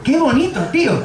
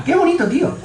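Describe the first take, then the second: First: High, gushing wonder; amazed friend. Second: Even higher gushing wonder; amazed friend again. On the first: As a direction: marvel like seeing colour for the first time. (amigo maravillado, voz aguda) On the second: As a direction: push the amazement further. (asombro todavía más agudo) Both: Retold or imitated. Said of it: "lo que dice es".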